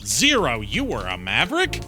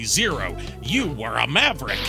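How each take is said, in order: First: It ends with a rising, questioning tone. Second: It ends with a falling, exclaiming tone. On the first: It asks whether something is true. The speaker calls it wrong. "they put a question mark there instead" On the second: It declares something known as fact. The speaker calls it right. "it's supposed to say"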